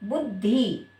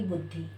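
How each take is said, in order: First: बुद्धि with the last vowel drawn out to ee; long-sounding ending. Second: बुद्धि with a brief final i, lower and softer; short final vowel. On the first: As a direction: say बुद्धि as "bud-dhee". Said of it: "बोलने में बड़ी के जैसा लग रहा है". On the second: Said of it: "छोटी की मात्रा". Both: Shown as a demonstration.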